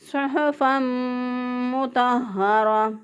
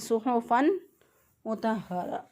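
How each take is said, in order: First: The n merges into the m with nasalization. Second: The n is pronounced clearly without nasal merging. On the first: The speaker calls it right. "दुरुस्त अदायगी है" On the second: The speaker calls it wrong. "इजहार करके पढ़ देते हैं"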